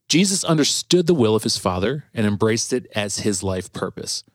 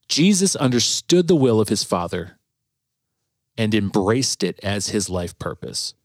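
First: It is read fast. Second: It is read slowly.

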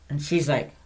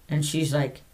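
No difference in how they are said.

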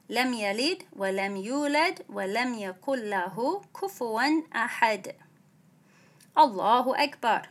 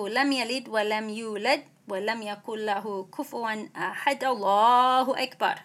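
First: A clear pause comes before Allahu akbar. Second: The verse runs straight into Allahu akbar. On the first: The speaker calls it right. "So you make a space between them" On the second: The speaker calls it wrong. "you don't connect the end of the surah with the takbir"

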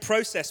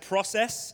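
First: It is said with a British pronunciation. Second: It is said with an American pronunciation. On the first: This is how the speaker normally says it. "instead of saying process" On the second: The speaker slipped into the local way of saying it. "without realizing I said process"

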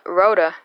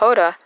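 First: The word begins with an R sound. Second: The word begins with an H sound. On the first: The speaker calls it wrong. "instead of Roda" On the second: The speaker calls it right. "The letter R has a H sound. This is the reason we say Roda"

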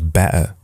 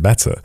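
First: It is said with a Yorkshire accent. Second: It is said with a standard English accent. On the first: The speaker calls it wrong. "I said better than like my in my Yorkshire accent" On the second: The speaker calls it right. "Better is the better way to say better"

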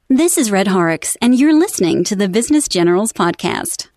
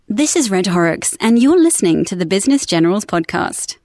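First: It is spoken in an American accent. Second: It is spoken in a British accent. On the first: "And then in American" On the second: "after the British one"

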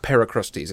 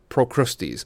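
First: The first syllable sounds like 'per'. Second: The first syllable sounds like 'pro'. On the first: The speaker calls it wrong. "Not Per Christie's" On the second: The speaker calls it right. "it's Pro Christie's"

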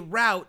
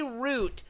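First: The vowel sounds like the one in 'out'. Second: The vowel sounds like the one in 'boot'. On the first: "spell it the actual way" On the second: "If you say root, spell it like the tree"

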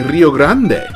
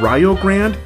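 First: The name is said with Spanish-style sounds. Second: The name is said with English-style sounds. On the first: This is how a Spanish speaker would say it. The speaker calls it right. "Instinctively, I want to say" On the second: This is how the school says its own name. The speaker calls it wrong. "the pronunciation of Rio Grande just hurts my heart as a Spanish speaker"

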